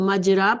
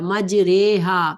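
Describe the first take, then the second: First: The vowel after r sounds like a. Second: The vowel after r sounds like e. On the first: "अलिफ की तरह पढ़ी जाती है, तो मजरा पढ़ा जाता" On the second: "या और ज़बर को ज़ेर की तरह कर दिया गया"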